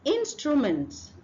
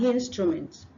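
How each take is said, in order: First: The word begins directly with a vowel sound. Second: The word begins with an added H sound. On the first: The speaker calls it right. "The next one is instrument" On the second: The speaker calls it wrong. "not instrument"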